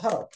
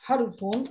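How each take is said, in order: First: The word ends on a bare final consonant. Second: The word ends with an added '-un' syllable.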